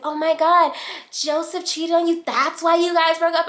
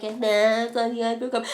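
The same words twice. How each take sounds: First: Scandalized questions, pitched way up; mock shocked friends. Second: Mocking echo reply. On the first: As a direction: imitate friends gasping at gossip. Friends shocked at cheating news. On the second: Acted reply echoing the shocked question.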